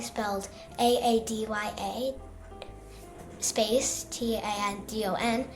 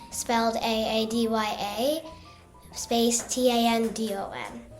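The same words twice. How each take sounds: First: It is said at a softer volume. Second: It is said at a louder volume.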